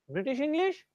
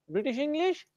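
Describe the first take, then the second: No difference in how they are said.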